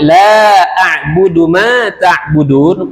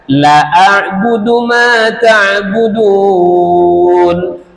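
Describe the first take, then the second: First: The first vowel is long. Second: The first vowel is short. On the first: The speaker calls it right. "Kalau lam dibaca panjang" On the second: The speaker calls it wrong. "Salah panjang pendek"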